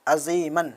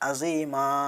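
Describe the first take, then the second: First: The word ends with an n sound. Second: The word ends with a long a. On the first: The reading continues past the word. "मन की जगह पे दो ज़बर आया" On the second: The reader stops at this word. "अगर हम वहाँ पे रुकेंगे तो वहाँ पे हम अज़ीमा पढ़ देंगे"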